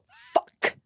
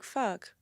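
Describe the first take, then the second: First: It is said in an overdone, dramatic way. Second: It is said in a plain, everyday way.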